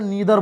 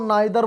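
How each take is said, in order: First: The first vowel sounds like 'ee'. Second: The first vowel sounds like 'eye'. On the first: "बात एक ही है" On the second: "नाइदर बोलो या नीदर बोलो"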